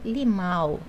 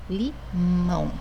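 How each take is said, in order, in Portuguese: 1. A vogal final é oral, não nasal. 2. A vogal final é nasal. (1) "Eu não digo limão" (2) "eu falo limão"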